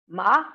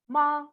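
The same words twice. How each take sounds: First: The pitch rises from mid to high. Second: The pitch stays high and level. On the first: It means hemp. "with high rising pitch" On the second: It means mother. "with high level pitch"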